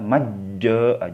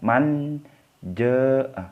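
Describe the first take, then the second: First: The n merges fully into the following j. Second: The n is pronounced plainly and clearly. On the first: "jangan dibaca majja, jangan. Karena ini bukan idgham" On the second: "Tapi jangan juga dibaca manja, jangan"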